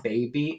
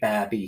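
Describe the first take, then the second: First: The first vowel is long. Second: The first vowel is short. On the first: The speaker calls it right. "It's baby" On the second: The speaker calls it wrong. "We wouldn't say babby here"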